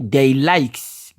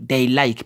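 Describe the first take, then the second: First: "likes" with a sounded final S after "they"; S wrongly added. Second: "like" ending cleanly on K, no S; no final S. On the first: Teacher shows the class the wrong form, "likes" with final S. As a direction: draw out "likes", ending on an audible S. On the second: Teacher corrects they likes, "like" without the S. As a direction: say "like" and stop at the K. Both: Shown as a demonstration. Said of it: "pas le S".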